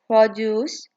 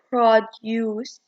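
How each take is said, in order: First: It is said in an American accent. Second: It is said in a British accent. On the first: "In American, they say it as" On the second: "In British, they say it as"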